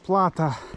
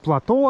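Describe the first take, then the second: First: The stress is on the first syllable. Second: The stress is on the last syllable. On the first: The speaker calls it wrong. "а не плато" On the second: The speaker calls it right. "надо говорить плато ... ударение на «о»"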